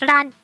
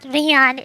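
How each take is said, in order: First: The final part is one syllable, ran. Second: The final part has two syllables, ree-an. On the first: The speaker calls it right. "it's Ran. Just Ran" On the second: The speaker calls it wrong. "It's not Rian"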